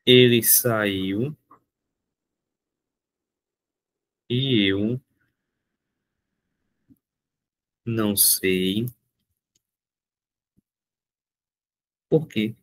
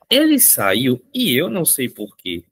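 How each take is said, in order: First: Very slow, word by word, long pauses; spaced-out dictation. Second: Said in the usual way. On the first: Shown as a demonstration. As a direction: dictate it slowly for the class. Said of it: "dictating example slowly". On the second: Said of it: "Ó".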